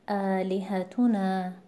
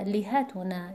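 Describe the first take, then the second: First: The stress falls on the syllable tu. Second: The stress falls on the syllable li. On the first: The speaker calls it right. "وزن رو سومین متحرک میاریم، یعنی اینجا میشه حرف تو. پس تلفظ میشه آلهتونه" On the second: The speaker calls it wrong. "رو اولین متحرک میاریم بگیم لیهتونه"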